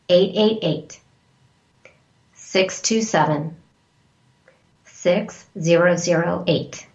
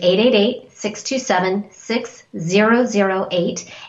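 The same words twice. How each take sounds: First: The number is read more slowly. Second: The number is read at normal speed.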